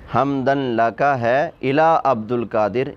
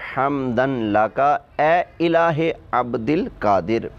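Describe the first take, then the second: First: It is read as 'ila', with no linking vowel. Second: It is read as 'ya ilahe', with a linking vowel. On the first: The saint is called a god. The speaker calls it wrong. "इन्होंने यूँ शेर पढ़ा था" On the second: Praise is addressed to the saint's Lord. The speaker calls it right. "ज़रा गौर से पढ़ो"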